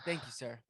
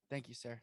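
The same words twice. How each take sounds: First: Said in the usual way. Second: Softer, falling echo of thank you, sir; softer second thank you, trailing off; quieter repeat. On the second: Acted. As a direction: murmur the thanks again under your breath.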